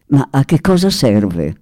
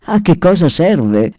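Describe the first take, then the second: First: Said in the usual way. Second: Put-on "A che cosa serve" ripreso di scatto, un po' più alto, con l'accento sulla "A"; ribattuta secca. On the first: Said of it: "infine chiese". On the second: A narrator's reading. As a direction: ribatti pronto e piccato, appoggiando la "A". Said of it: "scattò l'ambasciatore". (l'ambasciatore risponde al sultano con uno scatto piccato)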